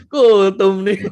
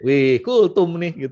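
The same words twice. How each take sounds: First: Loud, high mocking call; loud, high teasing teenager; teasing teen. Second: Slow, drawn-out mock; slow, teasing teenager's remark; teasing teen. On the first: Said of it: "Langsung bilang". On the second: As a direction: tease the parent about the sermon. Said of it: "anak saya tuh ngomong begini".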